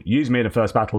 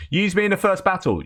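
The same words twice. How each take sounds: First: Said in the usual way. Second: Much higher, called out eagerly; rallying cry. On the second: Retold or imitated. Eager recruit calling to the unit, high rallying cry. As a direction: fire up the crowd with it. Recruit leads comrades' chant.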